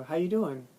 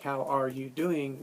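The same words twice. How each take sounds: First: Quick casual greeting said as one chunk. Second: Slower, each word separate; full careful form. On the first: Teacher showing a chunked greeting, run together. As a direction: run it together like a single word. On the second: Teacher contrasting the full form, slow and separate. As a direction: spell out every word of "How are you doing?". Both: Shown as a demonstration. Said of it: "As opposed to, like".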